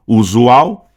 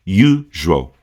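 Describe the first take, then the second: First: "Usual" as oo-zoo-OW, rising at the end; Portuguese pronunciation. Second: "usual" as YOO, zhul, falling; reduced English pronunciation. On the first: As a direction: give "Usual" all its Brazilian vowels, questioningly. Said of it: "a gente fala aqui todas as letras". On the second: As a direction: say English "usual" in two beats. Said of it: "quatro letras em um som só". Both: Shown as a demonstration.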